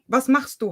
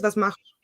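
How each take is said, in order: First: Standard German, with each word pronounced clearly. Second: Swabian dialect, with the words run together. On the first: "We pronounce all of the vowels in the beginning and in the end" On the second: "In Swabian, it would be ... We just smush it all together"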